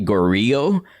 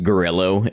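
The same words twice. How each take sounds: First: It is said in a Latin-sounding way, unlike 'gorilla'. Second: It is said like 'gorilla' with a final O. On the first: The name is taken to be Latin in origin. The speaker calls it wrong. "I pronounced it Gorillo because I assumed it was like Latin in origin" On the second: The name is just gorilla with an O. The speaker calls it right. "it's just Gorillo. It's just like a gorilla, but with an O"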